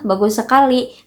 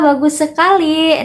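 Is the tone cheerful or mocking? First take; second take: mocking; cheerful. First: It is said in a mocking, sarcastic tone. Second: It is said in a cheerful, warm tone. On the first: It is a taunt, not praise. "itu bisa berubah menjadi sebuah ejekan" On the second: It is sincere praise. "dengan nada yang ceria"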